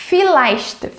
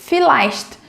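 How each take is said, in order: The two takes are said the same way.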